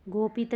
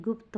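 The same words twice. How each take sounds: First: गोपित as "go-pit", two beats; wrong word form. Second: गुप्त as "gupt", one beat; short u and joined "pt" in गुप्त; corrected word form. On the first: Teacher showing students the error, गोपित as "go-pit". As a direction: say गोपित with long o, then "pit". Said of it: "गोपित नहीं". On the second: Teacher giving students the correction, गुप्त as "gupt". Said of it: "गुप्त होगा". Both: Shown as a demonstration.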